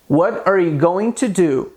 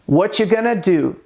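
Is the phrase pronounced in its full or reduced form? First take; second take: full; reduced. First: Every word is pronounced fully and separately. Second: The words are reduced and run together. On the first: The speaker calls it wrong. "Veja como está escrito aqui" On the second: The speaker calls it right. "Geralmente elas dizem"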